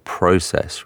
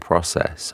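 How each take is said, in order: First: It is said with an English pronunciation. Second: It is said with an American pronunciation. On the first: "I would naturally say process" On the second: "rather than process"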